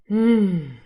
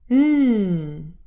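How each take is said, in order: First: The hum sounds relieved. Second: The hum sounds happy. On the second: "That was an example for a happy attitude"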